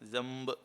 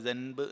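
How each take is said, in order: First: The nasal before b is an m sound. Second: The nasal before b is an n sound. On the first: The speaker calls it right. "ജംബ് എന്നാണ് പറയുക" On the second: The speaker calls it wrong. "ജൻബ് എന്ന് പറയുന്നതിന് പകരം ഒരു മീം ആയി മാറും"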